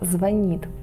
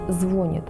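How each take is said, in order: First: The stress is on the second syllable. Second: The stress is on the first syllable. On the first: The speaker calls it right. "только «звонит»" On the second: The speaker calls it wrong. "Нельзя произносить «звонит»"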